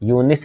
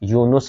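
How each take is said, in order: First: The second syllable has an 'i' vowel. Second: The second syllable has a 'u' vowel. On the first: The speaker calls it wrong. "यूनिस लफ्ज़ नहीं होता" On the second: The speaker calls it right. "बल्कि यूनुस लफ्ज़ होता है"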